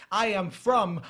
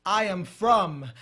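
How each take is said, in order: Both takes have the same delivery.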